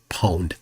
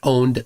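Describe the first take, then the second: First: The word starts with a 'p' sound. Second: The word starts with a plain 'o' sound. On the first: "Some people pronounce it pwned" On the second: "Some people pronounce it owned"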